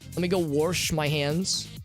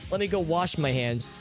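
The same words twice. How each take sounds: First: The word wash is said with an R. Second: The word wash is said without an R. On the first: "We put it in R for no reason" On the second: "We don't say"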